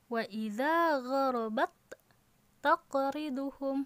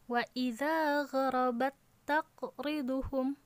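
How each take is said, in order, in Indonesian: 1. Huruf t yang pertama dibunyikan terpisah dari huruf t yang kedua. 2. Huruf t yang pertama menyatu ke huruf t yang kedua. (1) "bukan seperti itu" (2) "huruf ta sukun ini seperti dianggap tidak ada. Jadi langsung saja dari huruf yang pertama dimasukkan ke dalam huruf yang kedua"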